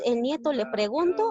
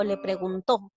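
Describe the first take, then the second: First: "preguntó" misread as pre-GUN-to; stress on middle syllable. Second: "preguntó" with the final TÓ stressed; stress on last syllable. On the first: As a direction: stress GUN, leave the final TO of "preguntó" weak. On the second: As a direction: offer the right reading, pregun-TÓ. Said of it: "él le preguntó". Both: Shown as a demonstration.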